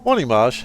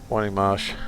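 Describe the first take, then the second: First: The greeting sounds cheerful and upbeat. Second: The greeting sounds sad and disheartened. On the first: "Happy to see you" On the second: "that sounded really disheartened"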